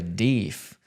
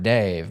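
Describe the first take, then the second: First: The vowel is long, as in 'beef'. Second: The vowel is 'ay' and ends in v. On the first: This is a regional way of saying it. "I grew up hearing people say deef" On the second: This is another regional way of saying it. "I had never heard Dave"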